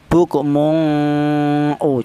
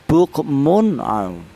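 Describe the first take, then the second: First: The n sound is blurred into a nasal hum. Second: The n sound is pronounced clearly and distinctly. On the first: The speaker calls it wrong. "Jangan dibaca samar ya" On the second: The speaker calls it right. "tapi jelas"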